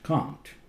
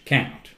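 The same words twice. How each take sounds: First: It is said in a British accent. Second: It is said in an American accent. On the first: "in British English" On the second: "American English"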